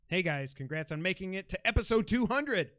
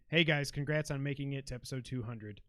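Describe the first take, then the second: First: It is read with excited, exclaiming energy. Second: It is read in a flat, plain way.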